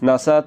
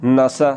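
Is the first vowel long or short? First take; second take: short; short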